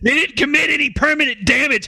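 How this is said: It is read in a put-on police officer voice. The speaker calls it right. "I need to channel an L A P D officer"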